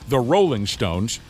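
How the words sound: The stress falls strongly on Rolling.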